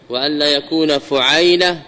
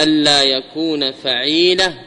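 First: فعيلة with u, then the diphthong ay; fu'ayla pattern. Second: فعيلة with a, then long ee; fa'ila pattern. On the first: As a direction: say فعيلة as fu-'AY-la. (فعيلة بضم الفاء وفتح العين) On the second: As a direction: slowly say فعيلة as fa-'EE-la. (فعيلة بفتح الفاء وكسر العين) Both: Shown as a demonstration. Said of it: "الأول عدم التضعيف".

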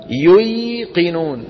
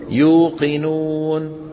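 First: "ييقنون" very slow, stretched yuy; original unaltered form. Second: "يوقنون" very slow, long uu; changed easy form. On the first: Teacher answers with the origin, "ييقنون" drawn out as yuy-qinuun. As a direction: hold the y after u in "ييقنون". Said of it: "شو أصلها؟". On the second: Teacher shows what it becomes, "يوقنون" very slow with long uu. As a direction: draw out "يوقنون" as yuu-qi-nuun. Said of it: "شو بتصير؟". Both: Shown as a demonstration.

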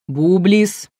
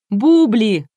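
First: «Бублис» с отчётливым «с» на конце; возразить, подняв тон на «Бублис». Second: Громко и высоко «Бубли», с открытым «и» на конце; озвучить «Бубли» как правильное чтение, громко; Бубли без «С». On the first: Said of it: "возразил ведущий". (громко «Бублис», со свистящим окончанием) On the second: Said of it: "озвучила Энн". (выкрикнуть «Бубли», обрывая слово на «и») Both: A narrator's reading.

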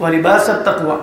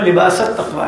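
First: وَلِبَاسُ read as wa-libasu, damma on the final s; وَلِبَاسُ with pesh, libasu. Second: لباس التَّقْوَىٰ read as libasa, fatha on the final s; لباس التَّقْوَىٰ with zabar, libasa. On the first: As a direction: end وَلِبَاسُ on a short u, wa-libasu at-taqwa. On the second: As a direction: say لباس with a short a ending, libasa at-taqwa. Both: Shown as a demonstration. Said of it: "زبر لگا کہ پیش ہے".

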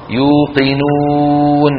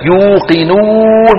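First: Long, evenly held "oo" in يوقنون; moderately rounded waw. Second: Higher, exaggerated long "ooo" in يوقنون; mock the over-pursed lips, pushing out a long oo in يوقنون; overdone lip rounding. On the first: Shown as a demonstration. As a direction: round the lips without overdoing it and draw out يوقنون. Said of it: "لا بد من ضم الشفتين". (يوقنون بضم معتدل للشفتين) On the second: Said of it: "كمان بيزودها كثير". (يوقنون بمبالغة في ضم الشفتين)

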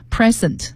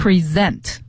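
First: "present" said PRE-sent, with an S sound and stress on the first syllable; "present" as a noun: hissed S, weight up front. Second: "present" said pre-ZENT, with a Z sound and stress on the second syllable; "present" as a verb: voiced Z, weight on the last syllable. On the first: Teacher contrasting the noun "present" for students: PRE-sent with an S sound. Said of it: "还有一个含义叫present，现在". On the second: Teacher showing students the verb "present": pre-ZENT with a Z sound. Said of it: "S是浊辅音，读成Z的音". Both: Shown as a demonstration.

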